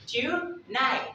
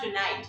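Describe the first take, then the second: First: TONIGHT slow, crisp first T, last T unreleased; first T sounded. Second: TONIGHT with its last T released; wrong final T. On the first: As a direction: draw out TONIGHT as "too-nigh". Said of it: "You're pronouncing the T". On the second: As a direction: say TONIGHT, ending on a clear T. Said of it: "It's not tonight". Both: Shown as a demonstration.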